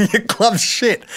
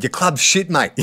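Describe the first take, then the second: First: Slowed and higher, each word drawn out; slow mocking sledge. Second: Said in the usual way. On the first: Repeating Silvani's sledge at the player, slow and higher. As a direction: relish the insult, word by word. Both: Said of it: "He was staring at him and said".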